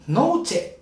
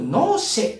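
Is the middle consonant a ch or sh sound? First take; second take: ch; sh. First: The middle consonant is a ch sound. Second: The middle consonant is a sh sound. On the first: "チェではなくて" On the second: "アンダルシア弁ではよくノーシェってね、チェではなくてシェと発音したりします"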